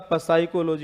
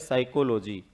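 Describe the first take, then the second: First: The word begins with a p sound. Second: The word begins with an s sound. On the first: "अगर पी से ही बोलते तो ये क्या हो जाता?" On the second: "हम बोलते किससे हैं? एस से।"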